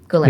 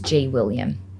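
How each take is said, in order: First: The name is said as one short word. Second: The name is said as a letter plus William. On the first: The speaker calls it right. "is how you pronounce it" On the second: The speaker calls it wrong. "So now I just say it's G. William"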